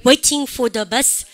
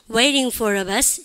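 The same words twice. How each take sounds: First: "Waiting" with a crisp T, slow; slow British "Waiting", T fully said. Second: "Waiting" with a flapped T like "weiring", slow; slow American flap in "Waiting". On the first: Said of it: "영국식 읽어보세요". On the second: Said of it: "미국식으로 해보세요". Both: Shown as a demonstration.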